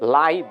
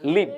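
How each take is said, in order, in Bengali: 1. স্বরধ্বনিটি 'eye'-র মতো শোনায়। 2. স্বরধ্বনিটি 'ih'-র মতো শোনায়। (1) "এটা লাইভ, L I V E লাইভ" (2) "আর L I V E লিভ"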